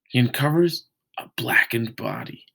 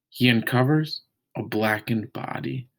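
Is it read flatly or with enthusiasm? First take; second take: enthusiastically; flatly. First: It is read with lively enthusiasm. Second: It is read flatly, without much enthusiasm.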